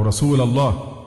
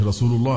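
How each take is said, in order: First: "رسول" ending in a, rasula llah; wrong case vowel. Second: "رسول" ending in u, rasulu llah; correct case vowel. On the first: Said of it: "أصبحت يا رسول الله". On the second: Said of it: "رسول الله بالرفع". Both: Shown as a demonstration.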